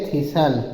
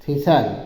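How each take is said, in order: Both takes have the same delivery.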